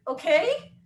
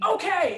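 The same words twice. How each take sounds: First: High rising puzzled okay; echoing the coach in disbelief; confused okay. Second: Higher, louder barked okay; mock coach yell. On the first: Retold or imitated. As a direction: ask it back baffled. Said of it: "And I was like". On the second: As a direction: shout it at the athlete. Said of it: "he kinda yelled it at me".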